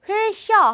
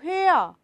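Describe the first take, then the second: First: A throaty ch sound is heard mid-word. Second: No throaty ch sound is heard mid-word. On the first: The speaker calls it wrong. "회샤 하지 않고" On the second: The speaker calls it right. "치가 탈락해서"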